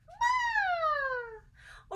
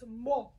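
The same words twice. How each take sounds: First: It is said in a very high voice. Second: It is said in a very low voice.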